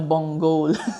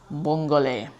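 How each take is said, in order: First: The word ends on a consonant sound. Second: The word ends on a vowel sound. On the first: The speaker calls it wrong. "ang sabi ko nung una, bonggol. Hindi daw" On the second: The speaker calls it right. "Ayun daw yung tamang pagkaka-pronunciation"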